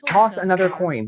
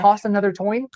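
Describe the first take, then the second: First: The last word starts with a k sound. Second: The last word starts with a t sound. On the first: The speaker calls it right. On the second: The speaker calls it wrong.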